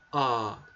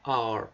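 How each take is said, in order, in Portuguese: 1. Uma vogal longa é mantida sem som de R. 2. A vogal termina com um R forte e prolongado. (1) "Eles não falam R, tá? Eles falam o A, só que o A bem prolongado" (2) "Os americanos pronunciam R dessa forma, né? R, puxando o R"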